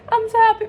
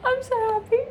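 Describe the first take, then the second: First: Much higher and louder, bursting; giddy fangirl yell; louder happy squeal. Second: Happy squeal. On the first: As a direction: shout your joy. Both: Real, not acted.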